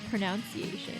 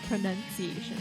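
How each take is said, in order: First: The second syllable sounds like 'nounce'. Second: The second syllable sounds like 'nun'. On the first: The speaker calls it wrong. "you think it's gonna be pron- pronounced pronunciation" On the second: The speaker calls it right. "but it's pronunciation"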